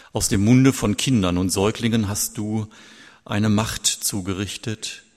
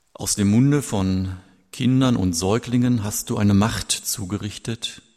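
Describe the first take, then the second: No difference in how they are said.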